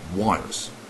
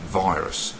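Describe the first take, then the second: First: The word begins with a W sound. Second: The word begins with a V sound.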